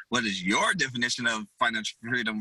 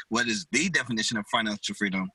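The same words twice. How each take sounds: First: YOUR lifted and leaned on; stress on YOUR. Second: THE lifted and leaned on; stress on THE. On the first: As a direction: punch "your" to make the question personal. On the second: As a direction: punch "the" as in the one official definition. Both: Shown as a demonstration. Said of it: "asked it the way that I".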